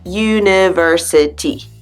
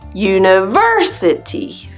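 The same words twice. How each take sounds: First: All syllables are even in strength and length. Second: The third syllable is stronger and longer. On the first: It sounds the way other languages say it. "In your language, maybe this word sounds like university. Da da da da da. There's not a lot of variation on the syllables" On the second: It sounds the way English says it. "That third syllable is stronger and a little longer"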